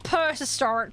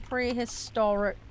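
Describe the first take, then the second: First: The first syllable is said as 'per'. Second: The first syllable is said as 'pre'. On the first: The speaker calls it wrong. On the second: The speaker calls it right.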